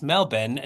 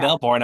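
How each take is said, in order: First: "Melbourne" said as MEL-bin, no r; local Australian pronunciation. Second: "Melbourne" said as MEL-born, with an r; the non-local "Melbourne", full second syllable with r; American pronunciation. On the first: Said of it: "not Melbourne". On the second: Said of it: "Did you know it's". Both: Retold or imitated.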